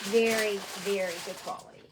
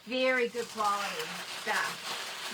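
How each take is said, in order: First: "Very" punched loud, then "very good quality" rushed; loud first very. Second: Slow, leaning hard on "very"; emphatic slow praise; stress on very. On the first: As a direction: hit the first "Very" hard and hurry the rest. Emphasising vendor's quality again. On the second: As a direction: draw out "very good quality stuff" to sell it. Emphasising vendor's quality. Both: Real, not acted.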